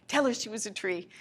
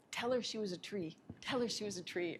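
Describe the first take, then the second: First: Said in the usual way. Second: Softer repeated command; softly voiced spirit message; soft insistent spirit. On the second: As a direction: quietly urge it twice.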